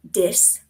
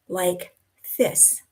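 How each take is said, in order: First: The word starts with a d sound. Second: The word starts with a th sound. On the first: "replace that T H with a D" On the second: "the T H sound, the th, like this"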